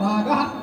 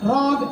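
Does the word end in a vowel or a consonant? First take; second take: vowel; consonant. First: The word ends with a full final vowel. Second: The word ends on a consonant, final vowel dropped. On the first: This is how the Carnatic tradition says it. "நம்ம என்ன சொல்றோம், ராகா" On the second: This is how the Hindustani tradition says it. "ராக் அப்படின்பா"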